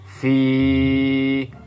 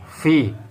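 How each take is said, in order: First: The vowel is long. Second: The vowel is short. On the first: "Mengapa ini dibaca panjang?" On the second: "Ini tidak ada ya sukun setelah kasroh"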